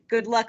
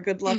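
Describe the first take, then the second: First: It sounds cheerful, as if it was great. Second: It sounds pitying, as if it was bad.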